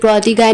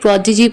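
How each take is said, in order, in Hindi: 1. यह शब्द 'eye' ध्वनि से खत्म होता है। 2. यह शब्द 'ee' ध्वनि से खत्म होता है। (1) "इसे प्रोडिगाई नहीं" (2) "प्रोडिजी प्रोनाउंस करेंगे"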